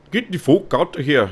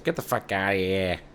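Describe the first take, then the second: First: Higher-pitched put-on Canadian accent; exaggerated Canadian accent, pitched up. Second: Lightly put-on Italian-American accent. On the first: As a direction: do a mock Canadian telling someone off. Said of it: "They'd probably be like". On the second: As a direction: say it with a hint of Italian wiseguy accent. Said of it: "I gave Canada an Italian accent".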